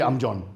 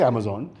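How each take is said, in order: First: It is said in a regional Indian accent. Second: It is said in a British-influenced accent. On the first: This is how it sounds in some other parts of India. "I'm sure some part of India it'll be Amjon" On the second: This is how people who think they are British say it. "since we think we are British uh, ... we will say Amazon"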